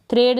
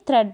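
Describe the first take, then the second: First: थ्रेड with a long "ay" vowel; थ्रेड rhyming with trade, as the misreading; wrong long vowel. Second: थ्रेड with a short open e; थ्रेड rhyming with bed; correct short vowel. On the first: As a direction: say थ्रेड as "thrayd". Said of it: "थ्रेड नहीं". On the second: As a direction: say थ्रेड as "thred". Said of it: "थ्रेड पढ़ेंगे इसको". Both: Shown as a demonstration.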